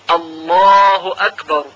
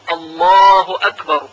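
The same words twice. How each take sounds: No difference in how they are said.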